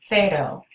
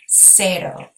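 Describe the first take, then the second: First: It begins with a th sound. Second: It begins with an s sound. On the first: "like a T H sound" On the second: "You could also make an S sound"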